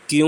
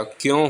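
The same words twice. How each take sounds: First: क्यों said as "kyun", with an oo vowel; wrong pronunciation. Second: क्यों said as "kyon", with a nasal o; correct pronunciation. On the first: Teacher showing students the mistaken क्यों, mispronounced as "kyun". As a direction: say क्यों with oo in place of o. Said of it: "क्यों नहीं होता". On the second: Teacher correcting the spelling of क्यों, pronounced clearly as "kyon". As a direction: give क्यों its o vowel, not oo. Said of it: "क्यों होता है". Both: Shown as a demonstration.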